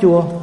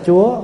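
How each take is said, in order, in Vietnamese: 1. Âm này được đọc với thanh ngang. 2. Âm này được đọc với thanh sắc, giọng cao và đi lên. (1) "đứa nào nó không nhận cái nào nó rất chua" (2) "mà ai nhận dấu sắc là Chúa"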